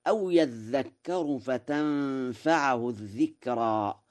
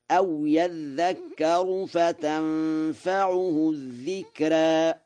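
First: Said in the usual way. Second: High, very slow chant, فتنفعه with u on the ayn; Warsh recitation. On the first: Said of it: "قوله تعالى". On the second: Shown as a demonstration. Teacher chanting the Warsh reading of فتنفعه high and slow. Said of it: "فيقرأ هكذا".

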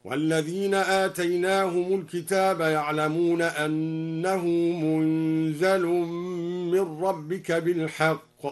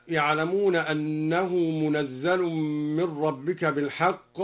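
First: منزل said munzal with a still n and a light z, slow; Duri reading. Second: Said in the usual way. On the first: Shown as a demonstration. Teacher reciting al-Duri's reading, slow tartil. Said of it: "بإسكان النون وتخفيف الزاي". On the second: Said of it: "هكذا".

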